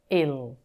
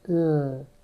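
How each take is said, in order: First: A short vowel comes before the L sound. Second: The L sound starts with no vowel before it. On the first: The speaker calls it wrong. "it will sound like ill" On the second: The speaker calls it right. "it has to be l"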